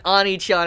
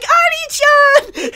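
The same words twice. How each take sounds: First: Said in the usual way. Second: Put-on high, drawn-out "Ani-chan!" shrieked like a small girl; little girl's scream. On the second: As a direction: stretch "Ani-chan!" into a slow, piercing child's wail. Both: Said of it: "the way she screamed".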